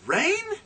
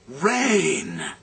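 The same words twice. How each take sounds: First: It is said as an incredulous question. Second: It is said in a relieved, glad tone.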